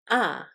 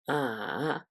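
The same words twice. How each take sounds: First: The pitch starts high and then falls. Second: The pitch falls first, then rises. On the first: "starts high and then falls" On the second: "The third tone falls first, then rises"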